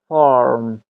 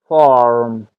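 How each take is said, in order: The two takes are said the same way.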